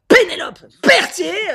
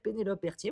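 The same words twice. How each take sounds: First: The name is said in an exaggerated, marked accent. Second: The name is said in a neutral, unmarked accent. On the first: This is how someone with an accent talks. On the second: This is how the speaker really talks.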